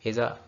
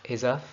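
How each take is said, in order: Both takes have the same delivery.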